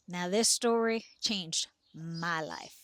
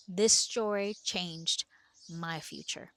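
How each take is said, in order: First: Said in the usual way. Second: Slow, with "this" leaned on and drawn out; stress on this. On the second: Shown as a demonstration. Telling listeners how the story changed her, stressing this. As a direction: weigh "This" heavily and slow the whole line down.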